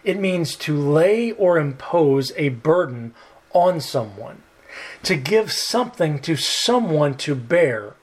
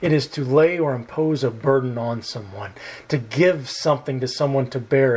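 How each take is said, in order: First: It is said at a slower pace. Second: It is said at a quicker pace.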